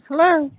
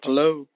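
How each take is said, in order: First: The voice is high-pitched. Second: The voice is deep and low. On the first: The speaker calls it right. "now that sounds like Gary" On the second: The speaker calls it wrong. "your voice is sounding too deep"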